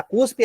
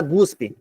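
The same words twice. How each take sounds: First: Cuspe with a hard K sound at the start; demonstrating cuspe with unvoiced C; correct pronunciation. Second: Guspe with a G sound at the start; demonstrating the slip guspe with initial G; mispronunciation. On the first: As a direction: say cuspe, crisp initial K. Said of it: "o certo é falar cuspe". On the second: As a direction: say guspe, G in place of K. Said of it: "aí você fala guspe". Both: Shown as a demonstration.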